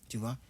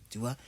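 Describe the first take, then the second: Both takes have the same delivery.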